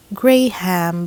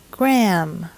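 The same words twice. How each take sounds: First: Graham as GRAY-ham; two full syllables in Graham, GRAY then HAM; local mispronunciation. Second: Graham as one syllable, GRAM; correct pronunciation. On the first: Teacher shows how locals say it, Graham as GRAY-ham. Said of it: "usually pronounced Graham by local folks". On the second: Teacher models the proper name, Graham as GRAM. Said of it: "we should say". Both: Shown as a demonstration.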